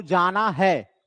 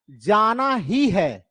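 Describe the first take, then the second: First: Said in the usual way. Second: ही stressed to show compulsion. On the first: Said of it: "एक compulsion को नहीं बता रहा है". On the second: Shown as a demonstration. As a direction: put the weight on ही. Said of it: "ज्यादा अगर हम जोर देते हैं". (ही पर ज़ोर देकर)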